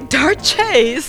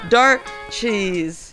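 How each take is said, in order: First: The name sounds like the single word 'darches'. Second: The name sounds like the two words 'dark cheese'. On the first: The speaker calls it right. "It's probably Darches" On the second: The speaker calls it wrong. "Is that the right way to pronounce it?"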